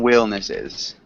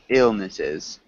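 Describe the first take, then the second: First: The word begins with a w sound. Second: The word begins with a plain vowel sound. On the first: The speaker calls it wrong. "You're saying willnesses" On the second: The speaker calls it right. "We want to say ill"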